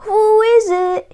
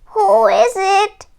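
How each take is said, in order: First: Wolf in a higher sweet granny voice; a wolf playing granny; sweetest Granny voice. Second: Put-on higher, slow old granny calling out; lightly voiced granny calling. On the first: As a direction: fake the grandmother sweetly. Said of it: "in his sweetest Granny voice". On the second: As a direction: call through the door as Granny. Called out Granny.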